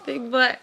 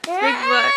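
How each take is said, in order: First: Said in the usual way. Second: Much higher playful squeak; high squeaky tease. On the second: Acted. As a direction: squeak it out teasingly. Teasing child, repeating words.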